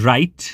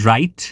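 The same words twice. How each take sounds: Both takes have the same delivery.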